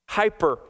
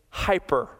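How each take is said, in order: First: The word is pronounced the English way. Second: The same.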